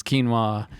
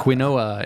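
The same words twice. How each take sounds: First: Said in the usual way. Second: "quinoa" as kwin-OH-uh; mispronounced quinoa. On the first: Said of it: "how hard it is to pronounce". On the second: Retold or imitated. Imitating people new to quinoa, "quinoa" read as spelled, kwin-oh-uh. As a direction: say "quinoa" in three parts, kwi-NO-uh. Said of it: "when people mispronounce things".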